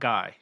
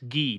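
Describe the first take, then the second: First: The name is given its English pronunciation. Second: The name is given its French pronunciation. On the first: The speaker calls it wrong. "not Guy" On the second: The speaker calls it right. "it's Guy, It's Guy in France"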